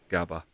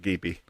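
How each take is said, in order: First: The word ends with an 'ah' vowel sound. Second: The word ends with an 'ee' vowel sound. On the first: This is the less probable pronunciation. "as opposed to gaba" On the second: This is the more probable pronunciation. "they reckon it's more probably with a gaby"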